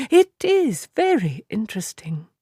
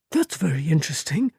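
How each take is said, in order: First: Whispered, calm cut-off; cool whisper. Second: Said in the usual way. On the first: A narrator's reading. Moraine cutting Perrin off in a whisper. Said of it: "Moraine said, cutting him off". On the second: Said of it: "Perrin said when Simeon paused".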